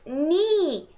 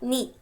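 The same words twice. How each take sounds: First: The syllable ni is stressed and drawn out. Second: The syllable ni is short and unstressed. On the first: The speaker calls it right. "stress the syllable ni because it's ni" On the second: The speaker calls it wrong. "not ni"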